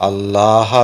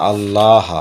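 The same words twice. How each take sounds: The two takes are said the same way.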